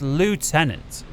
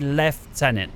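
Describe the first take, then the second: First: It is said without an f sound: loo-tenant. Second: It is said with an f sound: lef-tenant. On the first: "the Americans say it's Lieutenant" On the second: "being from the U K, we say Lieutenant"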